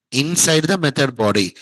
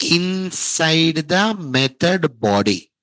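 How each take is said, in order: First: Said in the usual way. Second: Inside the method body spelled out slowly, word by word; slow, emphatic. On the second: Shown as a demonstration. Teacher telling students where exception will occur, slow and emphatic. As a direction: stretch each word of the answer.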